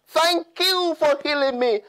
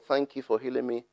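First: The phrase is said loudly and fervently. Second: The phrase is said quietly and casually. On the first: The thanks is wholehearted. The speaker calls it right. "with a loud voice glorified God" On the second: The thanks is half-hearted. The speaker calls it wrong. "just didn't say"

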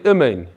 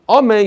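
First: The first vowel is a short reduced 'ih' sound. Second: The first vowel is a full 'ah' sound. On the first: The speaker calls it wrong. "Chatufa is that you put a shva under the aleph" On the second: The speaker calls it right. "Instead of saying amen"

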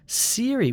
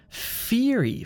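First: The word begins with an s sound. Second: The word begins with an f sound. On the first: "which sounds like an S sound. That's also wrong" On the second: "lots of Italians say fieri, ... but that's wrong. That's using your top lip on your teeth"

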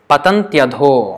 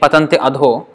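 First: The words run together with a 'y' sound. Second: The two words are said separately, ending in 'i'. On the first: The speaker calls it right. "join it together and pronounce together as if it's one word" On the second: The speaker calls it wrong. "Instead of saying patanti adho"

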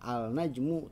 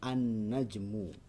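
First: The L sound is pronounced before the N. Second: The L merges into a doubled N sound. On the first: The speaker calls it wrong. "kita membacanya bukan al-najmu" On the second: The speaker calls it right. "tapi kita membacanya an-najmu"

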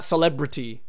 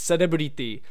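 First: The word flows smoothly with English pronunciation. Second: Every vowel is sounded out, Japanese-style. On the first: The speaker calls it wrong. "It's not celebrity, which kind of just flows" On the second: The speaker calls it right. "It's celebrity. You have to sound out every single vowel there"

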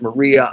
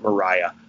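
First: The name is said as Maria. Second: The name is said as Mariah. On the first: This is how some other people say the name. "some people pronounced it Maria" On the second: This is how the speaker says the name. "I pronounce it Mariah"

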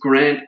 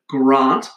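First: The name is said in an ordinary way. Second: The name is said in a posh way.

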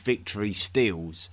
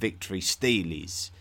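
First: The word stele is said with one syllable. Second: The word stele is said with two syllables. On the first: The speaker calls it wrong. "Someone actually did tell me off for calling the monuments of the ancient world Victory Steels" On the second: The speaker calls it right. "when I should have been calling them Victory Steelies"

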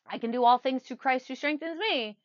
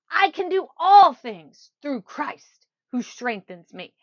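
First: The sentence is said plainly, with low energy. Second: The sentence is said intensely, with high energy. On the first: It is just a phrase being recited. The speaker calls it wrong. "it's not just a phrase. ... That's a phrase" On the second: The speaker fully believes and feels the words. The speaker calls it right. "Say it with emotion. Emotional intensity. ... I'm getting my emotions involved"

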